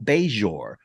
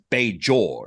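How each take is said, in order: First: The middle consonant is a soft 'zh' sound. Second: The middle consonant is a hard 'j' sound.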